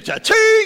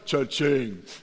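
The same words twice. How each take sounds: First: It is said with lively, high energy. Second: It is said with flat, low energy. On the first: The speaker is enthusiastic. The speaker calls it right. "Some of you, like, got into it" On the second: The speaker is unenthusiastic. The speaker calls it wrong. "And others"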